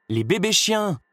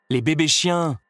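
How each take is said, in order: First: Villain pressing the wife, insisting much higher; insisting harder. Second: Insisting. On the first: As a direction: repeat "Les bébés chiens!" much higher and more pressing. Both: A narrator's reading. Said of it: "insista Cruella".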